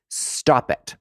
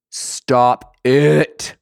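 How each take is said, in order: First: Whispered stop it. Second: Loud stop it. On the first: Whispered scold. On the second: Loud repeat. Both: Real, not acted.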